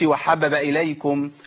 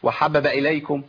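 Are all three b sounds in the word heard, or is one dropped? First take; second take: one dropped; one dropped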